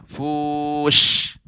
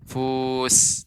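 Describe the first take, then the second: First: It ends in a spread, airy sh sound. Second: It ends in a narrow hissing s sound. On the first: The speaker calls it right. "Nah, fush" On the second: The speaker calls it wrong. "Tidak tidak hanya sekedar fus"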